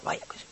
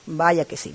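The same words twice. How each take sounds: First: Susurro ronco y muy suave, casi sin voz; voz ronca de la madre. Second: Said in the usual way. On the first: Retold or imitated. (madre enferma responde a su hija, con voz ronca y apagada) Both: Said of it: "con la voz ronca".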